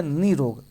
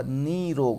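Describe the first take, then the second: First: निरोग said briefly, first vowel not stretched; as written. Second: निरोग with nee held long and slow; long first vowel. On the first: Teacher reading the printed misspelling, short unstretched निरोग. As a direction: say निरोग compactly as ni-rog. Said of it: "इसमें लिखा है निरोग". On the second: Teacher correcting the vowel for students, long nee in निरोग. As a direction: stretch the i of निरोग, neee-rog. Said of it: "बड़ी मात्रा होगा". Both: Shown as a demonstration.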